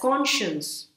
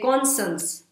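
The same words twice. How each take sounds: First: It is said with the standard pronunciation. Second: It is said with a common mispronunciation. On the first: The speaker calls it right. "It should be pronounced as conscience" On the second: The speaker calls it wrong. "People say conscience"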